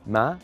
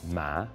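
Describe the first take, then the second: First: The pitch rises from low to high. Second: The pitch dips low, then rises.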